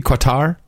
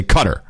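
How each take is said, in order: First: "Qatar" with a kw sound and stressed TAR; "Qatar" as "kwa-TAR". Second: "Qatar" with stress up front, CUT-er; short first vowel in "Qatar": CUT-er; "Qatar" as "cutter". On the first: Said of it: "wouldn't it be Qatar". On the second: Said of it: "or you say Qatar". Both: Shown as a demonstration.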